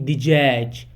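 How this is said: It is said with a j sound, Iraqi style.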